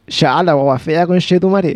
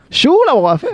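First: Santiago slang. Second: Higher, rural southern Chilean Shú; Chilean southern countryside accent, sung up high. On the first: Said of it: "la gente sí es de Santiago diría". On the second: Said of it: "la gente del sur diría así como". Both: Retold or imitated.

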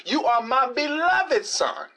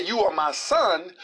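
First: "beloved" drawn out and pitched up; stress on beloved. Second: Said in the usual way. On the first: Retold or imitated. Preacher quoting God to correct Satan's omission, stress on "beloved". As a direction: lean hard and slowly on "beloved". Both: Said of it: "Not only did God say".

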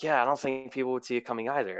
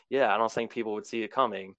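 First: Quick, light echo of her; mimicking Colleen. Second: Said in the usual way. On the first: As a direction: parrot her words back, a bit faster. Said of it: "And then she's like". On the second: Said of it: "And I'm like".

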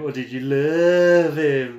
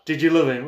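First: Slow, loaded "love" with a teasing lean; stress on love. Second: Said in the usual way. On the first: Shown as a demonstration. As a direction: draw out "love" suggestively.

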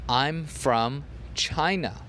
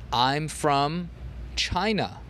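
The two takes are said the same way.

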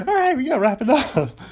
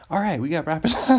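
First: High, loud and fast through laughter; laughing. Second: Said in the usual way. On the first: Real, not acted. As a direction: blurt it out cracking up. Fun to say, though.

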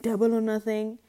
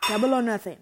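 First: Loud, theatrical, odd voice; dramatic bold declaration. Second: Loud, daring gamble; bold declaration. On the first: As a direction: ham it up like a gambler. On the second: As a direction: call it like a bet. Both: Pretend. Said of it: "I have to do it".

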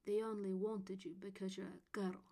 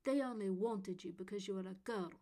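First: Put-on spiteful boy echoing in memory; mean and spiteful. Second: Put-on spiteful boy, louder, stress on They; mean and spiteful. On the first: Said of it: "his spiteful voice rang again". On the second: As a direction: spit it out to hurt her. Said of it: "saying the meanest thing he could think of". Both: A narrator's reading.

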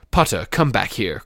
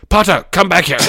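First: Said in the usual way. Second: High, loud angry shout. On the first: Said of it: "Quirrell shouted". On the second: A narrator's reading. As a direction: yell it after someone running off. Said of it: "Oh, shouted".

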